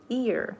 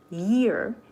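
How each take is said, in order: First: It starts straight on the vowel, like ear. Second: It starts with a strong, vibrating y sound. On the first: The speaker calls it wrong. "I used to pronounce year, ear" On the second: The speaker calls it right. "Y has very strong vibration, so we pronounce year"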